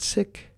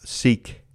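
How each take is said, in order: First: The word is said the community's own way. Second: The word is said the speaker's usual way. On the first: The speaker calls it right. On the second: The speaker calls it wrong.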